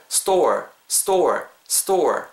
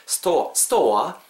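First: "store" ending in a rounded "er" R; clear R sound. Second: "store와" said as "sto-wa", no R sound; wrong pronunciation. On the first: Teacher modelling the correct word for students, "store" with an audible final R. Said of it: "약간 er 사운드 들어가죠". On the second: Teacher showing students what to avoid, "store와" with the R dropped. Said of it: "이렇게 발음하시기보다는". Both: Shown as a demonstration.

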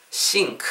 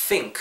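First: "sink" with S in place of TH; wrong S sound. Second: "think" begun with the tongue out; correct TH sound. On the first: Teacher contrasting the mistake, S-sound "sink" for "think". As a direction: start "sink" on an SH-like hiss, tongue in. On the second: Teacher showing learners the right way, "think" with TH. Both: Shown as a demonstration. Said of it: "혀내 미시고요".

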